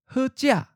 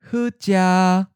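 First: The tone syllable is high and cut short. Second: The tone syllable is mid pitch, level and held. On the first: "High stop" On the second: "Mid flat"

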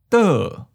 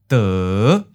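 First: The pitch starts high and falls. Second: The pitch starts low and rises. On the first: "Second tone, high falling" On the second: "Fifth tone, low rising"

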